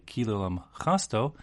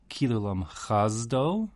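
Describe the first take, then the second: First: The last word has an s sound. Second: The last word has a z sound. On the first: The speaker calls it right. "like a s samach sound" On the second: The speaker calls it wrong. "with like a z zion sound instead of"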